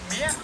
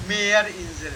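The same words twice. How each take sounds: First: "Meer" with the wrong vowel, questioning rise; faulty "Meer", lifted at the end; mispronunciation demo. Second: "Meerinsel" with a long e in Meer; long-vowel "Meerinsel", falling in pitch; corrected pronunciation. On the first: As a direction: mimic a learner's faulty "Meer". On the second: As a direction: model "Meerinsel", holding the first vowel. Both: Shown as a demonstration. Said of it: "Not Meer".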